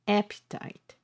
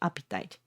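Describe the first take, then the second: First: The first vowel sounds like the a in apple. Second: The first vowel sounds like the e in epic. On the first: The speaker calls it right. "I should pronounce" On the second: The speaker calls it wrong. "not appetite"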